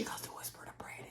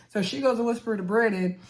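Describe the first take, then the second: First: Playful voiceless whisper. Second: Said in the usual way. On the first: Pretend. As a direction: narrate it in a hushed mock whisper.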